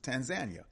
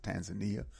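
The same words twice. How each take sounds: First: Tanzania said as tan-ZAN-ya; local pronunciation. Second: Tanzania said as tan-zuh-NEE-uh; common outsider pronunciation. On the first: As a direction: stress the ZAN in Tanzania, ending in a quick ya. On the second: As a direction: stress the NEE in Tanzania, ending in ee-uh. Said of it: "some people pronounce it Tanzania". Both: Shown as a demonstration.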